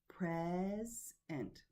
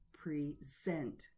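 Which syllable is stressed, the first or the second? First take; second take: first; second. First: The stress is on the first syllable. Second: The stress is on the second syllable. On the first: It is used as a noun. "is a noun and it is stressed on the first syllable" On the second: It is used as a verb. "the verb, the stress is on the second syllable"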